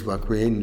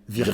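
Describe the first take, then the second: First: The name is said the English way. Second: The name is said the French way, with a v. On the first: "Les Anglais disent" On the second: "C'est un V"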